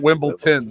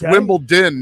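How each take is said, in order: First: The last syllable lacks a clear d. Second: The last syllable begins with a clear d. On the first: The speaker calls it wrong. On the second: The speaker calls it right. "It's Wimbledon, ... Din. D"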